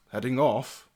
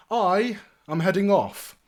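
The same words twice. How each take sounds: First: Understated knight's query; questioning old retainer. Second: High, loud and grand; lordly announcement. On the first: Sir Amadeus questions his lord's departure, restrained. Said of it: "Sir Amadeus quickly looks up and goes". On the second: Young lord announces he is leaving, grand and cheery. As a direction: announce it with a flourish. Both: Acted.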